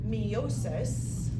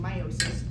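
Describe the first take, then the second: First: The first syllable sounds like "me". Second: The first syllable sounds like "my". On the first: "I like to say it that way" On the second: "instead of saying meiosis"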